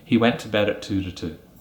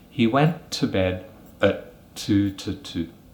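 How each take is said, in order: First: The sentence is said quickly and smoothly. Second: The sentence is said slowly and carefully. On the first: "fluently and quickly as a native English speaker would say it" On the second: "slowly as a native speaker"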